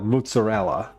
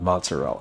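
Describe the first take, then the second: First: It is said with an exaggerated foreign accent. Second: It is said plainly without a foreign accent. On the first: "with a sort of an inflection, like a large inflection" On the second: "I just call it mozzarella"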